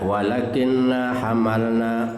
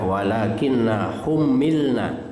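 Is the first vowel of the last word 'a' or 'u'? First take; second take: a; u. First: The last word starts with an 'a' vowel, unstressed 'm'. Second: The last word starts with 'u', then 'i', doubled 'm'. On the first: "dibaca patahannya dengan ringan" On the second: "dibaca dhammah ... kasrah ... tasdid"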